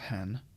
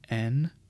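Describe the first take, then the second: First: The word begins with an h sound. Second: The word begins directly with the vowel. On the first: The speaker calls it wrong. "not hen" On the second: The speaker calls it right. "that would be en"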